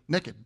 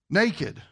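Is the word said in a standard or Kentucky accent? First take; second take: Kentucky; standard. First: It is said in a Kentucky accent. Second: It is said in a standard accent.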